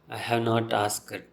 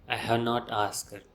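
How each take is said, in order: No difference in how they are said.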